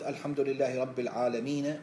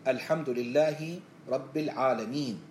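First: The last word stops on a final short vowel. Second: The last word stops on a bare final consonant. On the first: The speaker calls it wrong. "وأقف على متحرك" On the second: The speaker calls it right. "وقف، هذا هو الصحيح"

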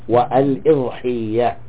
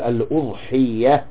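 First: The first vowel is an i sound. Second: The first vowel is a u sound. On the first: "وكسرها الإي" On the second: "بضم الهمزة الأو"

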